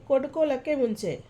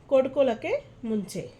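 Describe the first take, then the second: Both takes have the same delivery.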